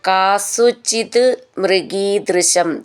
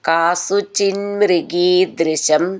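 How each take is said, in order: First: The two words are said separately. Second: The two words are joined into one.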